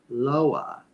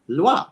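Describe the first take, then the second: First: It is said as two syllables, like 'low-ah'. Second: It is said as one syllable, like 'lwah'. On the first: The speaker calls it wrong. "if they want to read it English style, they're going to accidentally read it as Loa" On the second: The speaker calls it right. "French orthography wrote it with an O because French speakers knew what that sounded like"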